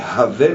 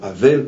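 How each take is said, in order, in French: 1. Le nom commence par un son h. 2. Le nom commence par une voyelle, sans h. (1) "c'est Havel avec un E" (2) "et non Havel, parce qu'on le prononce à la française"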